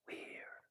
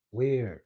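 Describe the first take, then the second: First: Whisper. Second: Said in the usual way. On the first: Shown as a demonstration. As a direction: whisper the word Weird, breathy and barely audible. Repeating the word, fading out.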